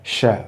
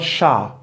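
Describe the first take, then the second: First: The syllable has a weak, reduced vowel. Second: The syllable has a full, strong vowel. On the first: The speaker calls it right. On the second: The speaker calls it wrong. "not sha"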